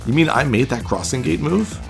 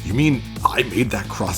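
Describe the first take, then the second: First: It is said in a phantom voice. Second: It is said in an old man voice.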